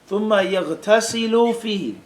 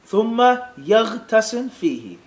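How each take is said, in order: First: The verb ends with a short u vowel. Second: The verb ends with no vowel sound.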